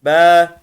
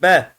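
First: Be with a long, held vowel; loud, drawn-out Be; lengthened vowel. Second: BE said short, unextended vowel; short, unlengthened Be. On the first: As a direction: stretch the vowel of Be. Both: Shown as a demonstration. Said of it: "Uzatıyor sadece".

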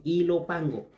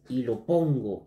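First: Ilopango repeated higher, with an a in "pango"; corrected place name. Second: Ilopongo with an o in "pongo"; misread place name. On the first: Vlogger repeats the city after apologising, corrected place name. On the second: Vlogger misreads a city from the list, misread place name. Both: Real, not acted. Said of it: "eh, perdón".

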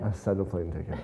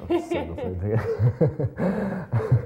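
First: Said in the usual way. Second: Slow, laughing repeat of the line. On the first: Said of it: "first take, plain". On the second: Real, not acted. Actor laughing as he repeats his joke. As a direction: chuckle through it. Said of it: "repeats line, laughing".

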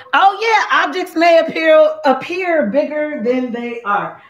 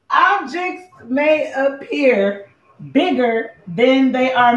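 First: High-pitched, delighted recital with a laugh; gleeful aha, breaking into laughter; excited recall. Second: Slow, drawn-out recital; measured, stretched-out warning notice; deliberate recital. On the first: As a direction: burst out with it, pitched up. Recalls mirror wording, laughing. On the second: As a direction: spell it out word by word, slowly. Recites mirror warning again, deliberately. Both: Real, not acted.

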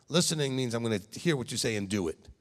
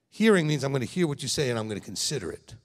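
First: Hear stressed in Listening means I'm gonna hear. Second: Hearing stressed at the start, the point landed. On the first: Rabbi contrasting listening and hearing for leaders, stressing hear. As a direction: lean on the word hear, flat and firm. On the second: Rabbi contrasting hearing with listening, stressing Hearing. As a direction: punch Hearing to set it apart. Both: Shown as a demonstration. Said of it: "You know there's a difference".

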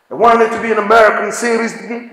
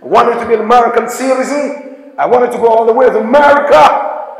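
First: Put-on quick light American-accented "I wanted to be an American citizen"; American accent imitation. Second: A lightly put-on American accent, fast; American accent imitation. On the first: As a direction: rattle it off like an American. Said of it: "You know how Americans speak". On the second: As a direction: mimic how Americans talk. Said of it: "That's how they speak".

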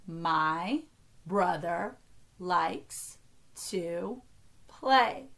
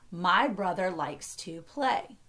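First: One word at a time, long pauses between. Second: Said in the usual way. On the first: Shown as a demonstration. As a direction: count it out slowly, separating each word. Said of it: "only count each word as one". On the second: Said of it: "sentence is".

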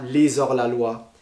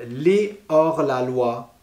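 First: "les hors la loi" linked with a z, lé-zor; "les hors la loi" run together as lézor la loi; wrong liaison. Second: "les hors la loi" slowly, gap after les; no liaison. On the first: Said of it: "et pas". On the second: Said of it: "par exemple". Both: Shown as a demonstration.

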